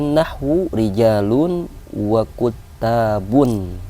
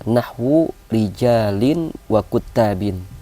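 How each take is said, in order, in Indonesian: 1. Kata bendanya berakhir dengan bunyi -un. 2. Kata bendanya berakhir dengan bunyi -in. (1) "dijar dengan kasrah muqaddarah" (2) "Dia dijar dengan kasrah zahirah"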